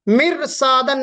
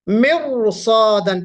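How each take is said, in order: First: The r sound is light and thin. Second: The r sound is heavy and thick. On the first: The speaker calls it wrong. "मिरसादन नहीं पढ़ेंगे" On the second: The speaker calls it right. "ब मोटा पढ़ेंगे, ... मिरसादन पढ़ेंगे"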